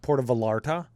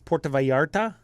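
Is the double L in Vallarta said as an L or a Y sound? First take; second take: L; Y. First: The double L is said as an L sound. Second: The double L is said as a Y sound. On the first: The speaker calls it wrong. "instead of" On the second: The speaker calls it right. "in Spanish it's"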